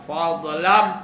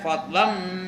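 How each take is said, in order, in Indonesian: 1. Bunyi dh diberi pantulan yang bergema. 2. Bunyi dh ditahan dengan halus, tanpa memantul. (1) "itu qala-qala" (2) "baca nak betul-betul ya"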